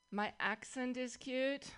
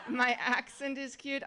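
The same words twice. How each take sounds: First: Slow, measured questioning of the compliment; mock disbelief. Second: Quicker incredulous question with a laugh in it; amused mock disbelief. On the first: Comedian answering people who praise her accent, slow mock disbelief. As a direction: draw it out as if baffled. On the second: Comedian answering accent compliments after the workout joke, laughing disbelief. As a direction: toss it out half laughing.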